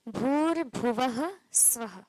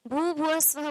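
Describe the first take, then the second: First: The r after the first syllable is pronounced. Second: The r after the first syllable is dropped. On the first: The speaker calls it right. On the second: The speaker calls it wrong.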